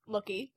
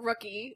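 First: The word begins with an L sound. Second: The word begins with an R sound.

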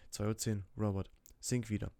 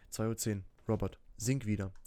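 The two takes are said the same way.

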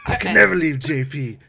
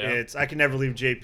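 First: The line is said in a gruff put-on voice. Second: The line is said in a plain, ordinary voice. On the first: The speaker calls it right. "do the voice" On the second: The speaker calls it wrong. "That's not it. You've never said it like that"

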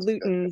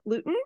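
First: The name ends with an S sound. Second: The name ends without an S sound. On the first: The speaker calls it right. "There's an S on the end" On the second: The speaker calls it wrong. "Did I pronounce that correctly?"

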